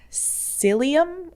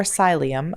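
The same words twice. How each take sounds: First: Psyllium said SIL-ee-um, questioning; first pronunciation guess. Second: Psyllium said SY-lee-um; second pronunciation guess. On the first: Vlogger unsure of the seed's name, tries psyllium as SIL-ee-um. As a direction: say psyllium with a short i, as in silly. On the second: Vlogger corrects herself unsurely, psyllium as SY-lee-um. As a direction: say psyllium with a long i, as in sigh. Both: Shown as a demonstration. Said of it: "don't really know how to pronounce".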